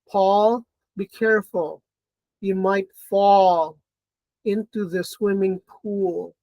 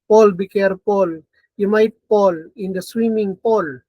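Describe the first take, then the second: First: Paul, fall and pool have distinct vowels. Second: Paul, fall and pool share one vowel.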